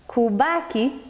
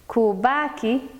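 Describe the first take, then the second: Both takes have the same delivery.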